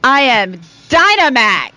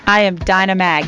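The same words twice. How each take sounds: First: It is said with gusto and a Southern twang. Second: It is said plainly, without a Southern twang.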